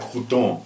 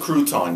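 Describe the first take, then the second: First: It is said with a French-style pronunciation. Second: It is said with a plain English pronunciation. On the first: The speaker calls it wrong. "you don't say like crouton" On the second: The speaker calls it right. "It's it's a crouton"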